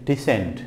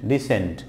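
No difference in how they are said.

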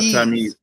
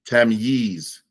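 First: The final syllable does not sound like "yeez". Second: The final syllable sounds like "yeez". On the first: The speaker calls it wrong. "Not Tamyiz" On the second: The speaker calls it right. "Yeez, like Yeezy"

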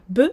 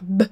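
First: The letter name, b followed by an e vowel. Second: A bare b sound with no vowel after it. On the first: The speaker calls it wrong. "et pas B" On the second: The speaker calls it right. "vraiment faire B"

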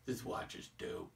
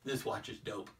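First: It is said in a cool, disinterested way. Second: It is said in a plain, neutral way.

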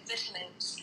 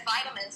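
First: It is pronounced the British way. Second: It is pronounced the non-British way. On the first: "se dice vitamins" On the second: "en Inglaterra no se dice vitamins"

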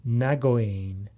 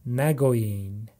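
Both takes have the same delivery.

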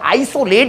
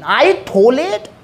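First: The s is said as a clear s sound. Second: The s is lisped like a th sound. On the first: "आइसोलेट ही बोल देता" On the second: "जैसे मतलब तोतली जुबान में बोला जाता है"

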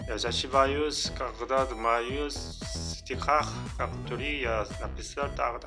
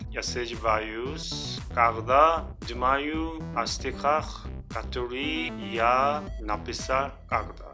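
First: The sentence is read at a faster pace. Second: The sentence is read at a slower pace.

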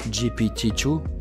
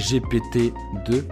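First: The letters are spoken with American English letter names. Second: The letters are spoken with French letter names. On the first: The speaker calls it right. "On va le dire à l'américaine" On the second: The speaker calls it wrong. "en français, oui, c'est un peu ridicule"

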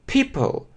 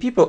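First: The p is said with a puff of air. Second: The p is said without a puff of air. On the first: The speaker calls it right. "а people" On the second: The speaker calls it wrong. "не people"

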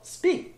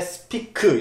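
First: The vowel is stressed and stretched out longer. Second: The vowel is short, in a Korean-style accent. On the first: The speaker calls it right. "중간에 강세를 주고 살짝 길게 끌어서" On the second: The speaker calls it wrong. "이렇게 콩글리시처럼 말씀하지 마시고"

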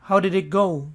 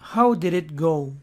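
First: It is said fast and connected. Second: It is said slowly and carefully.

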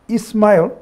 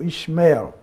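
First: The name is given an Arabic pronunciation. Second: The name is given a Hebrew pronunciation. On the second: "if you are a Hebrew speaker"

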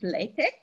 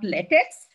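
First: The word ends with a k sound. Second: The word ends with a ks sound. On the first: The speaker calls it right. "It's LaTeX" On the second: The speaker calls it wrong. "Not LaTeX. ... it gives me a rubbery feeling"

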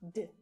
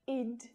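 First: The ending is a bare d sound. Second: The ending has a vowel before the d. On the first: The speaker calls it right. "but d. There's no vowel sound there" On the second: The speaker calls it wrong. "Not id"

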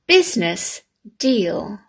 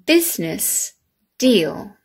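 The two takes are said the same way.

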